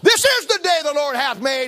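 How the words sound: It is barked like a gruff drill sergeant.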